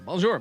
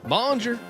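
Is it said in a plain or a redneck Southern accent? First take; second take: plain; redneck Southern. First: It is said in the speaker's plain voice. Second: It is said in a put-on redneck Southern accent.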